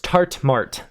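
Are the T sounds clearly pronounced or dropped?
clear. The T sounds are clearly pronounced.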